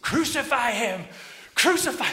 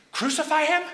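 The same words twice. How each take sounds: First: Loud, high mob shout; crowd yelling. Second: High, loud, rising disbelief; alarmed question. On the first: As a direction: yell it out for the whole square to hear. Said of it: "They start yelling back again". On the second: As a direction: echo the shout as a startled question. Prisoner questions what he hears. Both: Acted.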